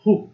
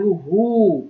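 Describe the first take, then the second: First: هو as a quick, short hu; short damma. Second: هو with a drawn-out huu; long waw. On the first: Teacher showing the short sound with damma, brief hu for هو. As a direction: cut the vowel of هو short, just hu. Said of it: "القصير أقل من ثانية". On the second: Teacher showing the long sound with waw, held huu for هو. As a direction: hold the vowel of هو long, as huu. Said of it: "الصوت الطويل وجود حروف المد". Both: Shown as a demonstration.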